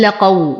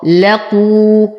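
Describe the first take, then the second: First: لقوا with the final alif wrongly sounded; wrong pronunciation. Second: Slow لقوا, alif after the waw left silent; correct pronunciation. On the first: Teacher shows students the wrong reading of لقوا. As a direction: say لقوا pronouncing the silent alif, the mistake to avoid. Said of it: "وهذا خطأ". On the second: Teacher gives students the correct reading of لقوا, slow and careful. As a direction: say لقوا slowly with no alif sound at the end. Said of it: "لا تنطق". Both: Shown as a demonstration.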